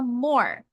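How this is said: American accent, with the r sound. "E o americano fala more"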